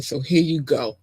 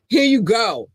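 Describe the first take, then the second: First: Said in the usual way. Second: Higher, bright ta-da reveal; showing off the new notes; excited presenting. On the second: Real, not acted. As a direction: present it like a gift. Unveiling the new love notes.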